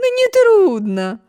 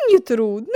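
First: Exclaiming. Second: Said in the usual way. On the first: A narrator's reading. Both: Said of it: "воскликнула".

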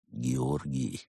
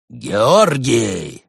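First: Lower, soft threatening name; quiet menace. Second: Louder, sharp shouted name; bark. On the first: Cat monk quietly threatening the gopher. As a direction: say his name slowly like a warning. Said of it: "произнёс он тихо и пугающе". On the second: Cat monk barking at the stalling gopher. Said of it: "рявкнул Барс". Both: A narrator's reading.

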